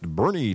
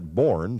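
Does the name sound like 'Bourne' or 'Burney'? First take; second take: Burney; Bourne. First: The name is said as the locals say it. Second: The name is said following its spelling. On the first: The speaker calls it right. "but it's pronounced Burney" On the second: The speaker calls it wrong. "a lot of people tend to pronounce that Bourne, since that's the way it's spelled"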